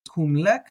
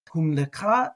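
First: The word ends with a consonant sound. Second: The word ends with an extra vowel sound. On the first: The speaker calls it right. "so it's just kumlek" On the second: The speaker calls it wrong. "I think I said leka"

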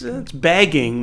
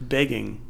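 First: The first vowel sounds like the vowel in 'bag'. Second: The first vowel sounds like the vowel in 'beg'. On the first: This imitates how another speaker says it. The speaker calls it wrong. "That's bagging when you say it" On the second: This is how it should be said. The speaker calls it right. "but it's begging"

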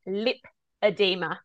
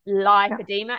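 First: The first syllable sounds like 'lip'. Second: The first syllable does not sound like 'lip'. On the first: The speaker calls it right. "it's lipedema, like lipids" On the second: The speaker calls it wrong. "not lipedema"

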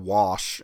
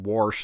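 First: The word is said in a plain, standard accent. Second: The word is said with a twangy Southern accent. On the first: "instead of wash" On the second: "you get into the super twangy saying wash"

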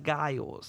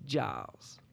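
First: The name begins with a hard G sound. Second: The name begins with a J sound. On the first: The speaker calls it wrong. "not Giles" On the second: The speaker calls it right. "It's a soft G, more like a J"

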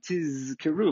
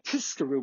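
First: The z sound is held longer. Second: The z sound is short. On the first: It means you will remember. The speaker calls it right. "lengthen the zayin, tizkeru, like that" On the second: It means you will be rewarded. The speaker calls it wrong. "doesn't sound like tizkeru, which is from the lashon of schar"

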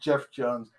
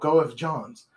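First: The first name sounds like 'Jeff'. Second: The first name sounds like 'Go-eff'. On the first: The speaker calls it right. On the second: The speaker calls it wrong.

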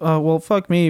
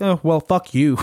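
First: It is said in a meek, wimpy way. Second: It is said in a forceful, aggressive way.

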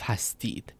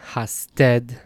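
First: The last syllable has an 'ee' vowel. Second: The last syllable has an 'eh' vowel. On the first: This is the form used in Iran. "that ya is pronounced as an e in Iran" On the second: This is the Dari and Tajik form. "In Dari and in Tajik, this is pronounced eh, or a"

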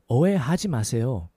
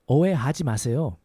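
Both takes have the same delivery.

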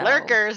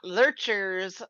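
First: The middle consonant is a hard k sound. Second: The middle consonant is a ch sound. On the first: The speaker calls it right. "lurkers, not lurchers" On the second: The speaker calls it wrong. "not lurchers"

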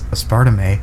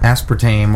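First: The stress falls on an unusual syllable. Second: The stress falls on the usual syllable.

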